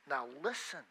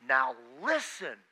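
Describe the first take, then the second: First: Said in the usual way. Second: Slow, weighty fatherly warning; stern dad warning. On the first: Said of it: "can be translated very easily simply saying". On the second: Retold or imitated. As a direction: lean on it like a dad about to lecture. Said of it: "a chair of your dad and he says".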